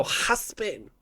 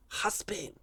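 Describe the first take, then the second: First: Husband said as huspin with Spanish sounds; Spanish accent. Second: Put-on husband said with a Spanish accent, huspin. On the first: Retold or imitated. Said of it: "They go". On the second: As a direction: mimic a Spanish speaker saying husband. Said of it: "Spanish people".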